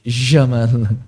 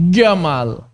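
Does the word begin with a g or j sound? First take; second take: j sound; g sound. First: The word begins with a j sound. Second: The word begins with a hard g sound. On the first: It is how common Levantines say it. "Orang Syam Jamal jadi Jamal" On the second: It is how common Egyptians say it. "Akhirnya Jamal jadi Gamal"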